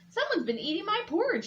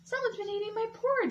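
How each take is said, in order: First: A deep, gruff growling voice. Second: A soft, low exclaiming voice.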